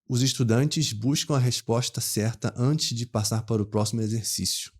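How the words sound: A Rio accent with hushed 'sh'-like s sounds. "um carioca da capital mesmo ali ... Ele pronunciaria assim"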